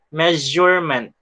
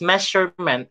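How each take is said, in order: First: The middle consonant sounds like a buzzing z. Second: The middle consonant sounds like a plain s. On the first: The speaker calls it right. "Parang Z" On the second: The speaker calls it wrong. "usually students read this one as measurement"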